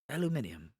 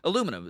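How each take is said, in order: First: The word is said in a British way. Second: The word is said in an American way.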